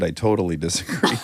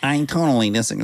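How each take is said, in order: First: It is said in a normal voice. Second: It is said in a high nasal voice.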